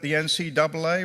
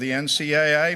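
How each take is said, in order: First: The last two letters are said as double A. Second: The last two letters are said as A, A. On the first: "whether to call it the N C double A" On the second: "or the N C A A"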